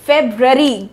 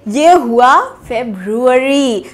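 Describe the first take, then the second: First: फेब्रुअरी clipped as feb-ree; wrong pronunciation. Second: फेब्रुअरी said feb-roo-ary, u drawn out; correct pronunciation. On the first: Teacher showing the common wrong फेब्रुअरी. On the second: Teacher giving the right फेब्रुअरी after the wrong one. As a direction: give फेब्रुअरी its full roo. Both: Shown as a demonstration. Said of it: "गलत".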